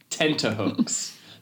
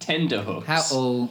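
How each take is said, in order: First: The middle consonant is a t sound. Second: The middle consonant is a d sound. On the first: The speaker calls it right. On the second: The speaker calls it wrong. "Not, as some people think, tenderhooks"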